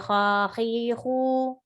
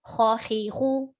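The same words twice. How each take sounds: First: The vowels are stretched out and prolonged. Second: Each vowel gets one short even beat. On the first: The speaker calls it wrong. "Don't say khakhihu" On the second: The speaker calls it right. "one haraka"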